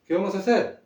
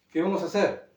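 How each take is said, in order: Both takes have the same delivery.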